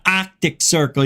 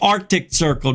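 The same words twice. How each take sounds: First: It is said with a Boston-sounding accent. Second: It is said without a Boston-sounding accent. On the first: The speaker calls it wrong. "not Arctic Circle. You're not from Boston" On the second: The speaker calls it right. "It's Arctic Circle"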